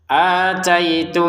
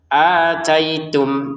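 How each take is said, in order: First: The final m is muffled into the next b. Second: The final m is pronounced clearly. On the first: "kalau mau digabungkan dengan ba, maka samar sudah" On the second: "maka jelas ataitum, mimnya sukun ini jelas"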